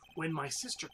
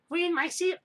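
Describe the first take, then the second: First: It is read in the speaker's ordinary voice. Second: It is read in a put-on character voice.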